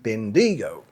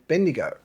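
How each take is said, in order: First: The stress is on the second syllable. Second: The stress is on the first syllable. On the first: This is how an American says it. The speaker calls it wrong. "He's stressing Digo instead of Ben" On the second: This is how Australians say it. The speaker calls it right. "we would say Bendigo"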